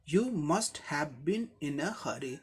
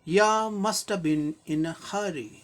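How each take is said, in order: First: You and have are both said in full. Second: You and have are reduced to ya and must've. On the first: It is formal speech. "इसी को formal way में express किया जाए" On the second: It is casual everyday talk. "Highly informal expression हो गया"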